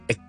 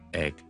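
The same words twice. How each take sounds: First: The vowel is closer, like 'e'. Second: The vowel is open, like 'a'. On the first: The speaker calls it wrong. "很多時候將它讀成egg 這樣" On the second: The speaker calls it right. "是a 跟著end it with a g sound and it becomes egg"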